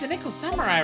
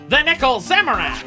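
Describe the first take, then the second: First: It is said with plain, ordinary energy. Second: It is said with lots of force and energy. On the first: The speaker calls it wrong. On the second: The speaker calls it right.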